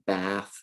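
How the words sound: It is said in a General American accent. "with a general American accent"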